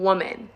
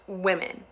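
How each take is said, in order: First: It is said with the singular 'woman' sound. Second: It is said with the plural 'women' sound. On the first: The speaker calls it wrong. "a lot of people saying woman instead of women" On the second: The speaker calls it right. "I was taught that this is pronounced women"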